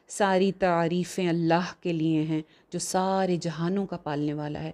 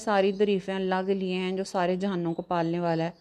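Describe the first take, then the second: First: It is read forcefully, with strong feeling. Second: It is read flatly, without force or feeling. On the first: The speaker calls it right. "मज़बूत लहजे में बोले, एक feeling के साथ" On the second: The speaker calls it wrong. "तो वो उर्दू ही गलत बोल रहा है ना"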